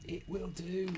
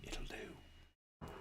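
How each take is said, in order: First: Higher, voiced insistence. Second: Soft, voiceless whisper. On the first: Builder declaring the sticker acceptable, high and voiced. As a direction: say it aloud, high, each word separate. Repeats the verdict aloud, emphatically. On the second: Builder settling for an imperfect sticker, whispered. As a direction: whisper it to yourself. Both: Real, not acted.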